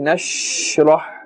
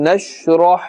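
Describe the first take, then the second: First: The sh sound is drawn out long. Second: The sh sound is kept short. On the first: The speaker calls it wrong. "don't stretch the sound of the sheen. That will be incorrect" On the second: The speaker calls it right. "In the normal ma'ruf manner we should pronounce this letter"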